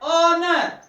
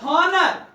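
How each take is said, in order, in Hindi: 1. यह शब्द सीधे एक स्वर ध्वनि से शुरू होता है। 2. यह शब्द एक स्पष्ट H ध्वनि से शुरू होता है। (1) "it is O" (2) "it is not honor"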